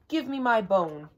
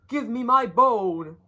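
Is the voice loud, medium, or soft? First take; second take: soft; loud. First: It is said softly. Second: It is said loudest of all.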